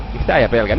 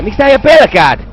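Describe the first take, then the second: First: Low, soft, puzzled asking; low muttered question. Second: Exasperated outburst. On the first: Player puzzling over a scared man, low mutter. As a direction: ask it softly, pitched down. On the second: Player fed up with a scared man, exasperated cry. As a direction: burst out with the question, pitch up. Same question, now bursting out. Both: Real, not acted.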